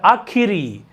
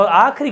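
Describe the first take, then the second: First: आखिरी in three syllables, "aa-khi-ree"; correct form आखिरी. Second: आखिरी squeezed to "aakhri"; wrong form of आखिरी. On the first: Teacher correcting the slip, आखिरी with clear "khi". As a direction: sound the middle "khi" in आखिरी. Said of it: "आखिरी होता है". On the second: Teacher showing the everyday slip, आखिरी as two-syllable "aakhri". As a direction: drop the middle vowel of आखिरी. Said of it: "आखिरी क्या होता है". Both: Shown as a demonstration.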